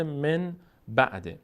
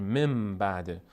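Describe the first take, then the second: First: من بعده as two separate words, clear n in men; unchanged nun. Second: من بعده run together as mem-ba'de, m held; nun read as mim. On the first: Teacher citing the words as written, men ba'de with n. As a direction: say من with a plain n, pause, then بعده. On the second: Teacher demonstrating the rule for learners, joined mem-ba'de with m. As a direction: hum a long m in من straight into بعده. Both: Shown as a demonstration.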